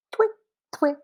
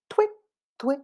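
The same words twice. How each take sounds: The two takes are said the same way.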